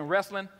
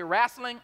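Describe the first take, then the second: First: Said in the usual way. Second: "wrestling" said as rasslin, with no t and an open a; his own rasslin. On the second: Shown as a demonstration. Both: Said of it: "that's the way I say it".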